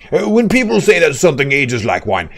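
It is read in a put-on fancy accent.

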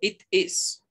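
It is said in a British accent.

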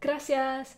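It is said with the American-learned pronunciation.

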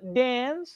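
It is said in an American English accent. "definitely belongs to America"

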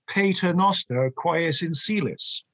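The Latin is pronounced with English sounds. This is the older English and Irish custom. "in England and in Ireland, it would be ... as though it were English"

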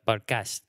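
It is said with an English-like accent. "they're trying to do an accent in English though"

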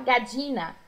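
The double L sounds like dj. "como se fosse DJ"

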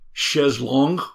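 It is said with a French pronunciation. "French chaise longue"

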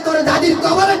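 It is said in a heated, speech-making voice. A political leader is giving a speech. "যে সমাজে বক্তৃতা দিয়ে বেড়ায় নেতা মানুষ... ভাই গরম হয়ে গেছে"

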